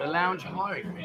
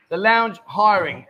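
First: Said in the usual way. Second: "lounge hiring" said slowly, each syllable drawn out and stressed; slow careful pronunciation. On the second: Shown as a demonstration. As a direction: spell out "lounge hiring" slowly and clearly, louder. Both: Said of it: "L O O".

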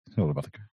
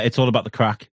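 First: "It's all about the crack" said much softer and lower, under the breath; quiet repeat. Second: Said in the usual way. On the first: Shown as a demonstration. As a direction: mutter it back to yourself. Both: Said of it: "it's about crack wrong".

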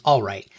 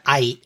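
First: Said in the usual way. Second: "aight", all right squeezed into one drawn-out slide; stretched slang pronunciation. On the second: Shown as a demonstration. Host demonstrates nineties slang, stretched "aight". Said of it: "stretching it out to".

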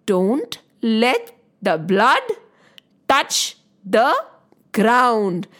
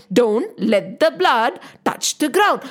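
First: Every word spaced out with pauses, blood lifted; slow deliberate warning. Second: Said in the usual way. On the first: Shown as a demonstration. Storyteller teaching children the trick, slow and paused. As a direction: tell the children the rule slowly, pausing between phrases. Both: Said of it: "so the trick is".

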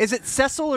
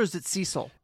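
First: "Cecil" said as "SESS-ul"; first syllable of "Cecil" rhymes with "mess"; short-e pronunciation. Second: "Cecil" said as "SEE-sul"; first syllable of "Cecil" rhymes with "tree"; long-e pronunciation. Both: Shown as a demonstration. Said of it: "It's Cecil".

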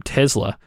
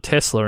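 First: "Tesla" with a z, TEZ-la; z pronunciation. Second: "Tesla" with an s, TESS-la; s pronunciation. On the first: Retold or imitated. Host quotes a former guest's way, "Tesla" as TEZ-la. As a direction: say "Tesla" with a buzzing z. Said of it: "Jason Cartwright was calling". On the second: Shown as a demonstration. Host shows their old habit, "Tesla" as TESS-la. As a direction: say "Tesla" with an unvoiced s sound. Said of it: "I always called it".

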